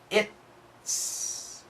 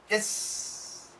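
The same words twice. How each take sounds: First: The t sound is clearly stopped and pronounced. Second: The t sound is nearly dropped into the s. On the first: "Perfect pronunciation" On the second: "But when we say it really fast"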